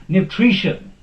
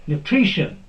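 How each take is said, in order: The two takes are said the same way.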